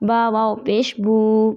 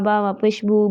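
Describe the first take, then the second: First: The final vowel is held long. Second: The final vowel is cut short. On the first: The speaker calls it right. "इनको लंबा करना है" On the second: The speaker calls it wrong. "आपने इसको ऐसे नहीं पढ़ना"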